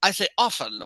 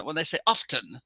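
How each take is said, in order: First: "often" said "offen", t silent. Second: "often" with the t sounded; "often" said "off-ten". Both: Shown as a demonstration.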